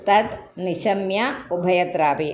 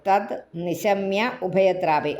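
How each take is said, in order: Both takes have the same delivery.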